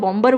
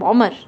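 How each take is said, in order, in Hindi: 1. m के बाद b की आवाज़ सुनाई देती है। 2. m के बाद कोई b की आवाज़ सुनाई नहीं देती। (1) "बॉम्बर वर्ड यूज़ नहीं किया" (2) "सो बॉमर वर्ड यूज़ किया"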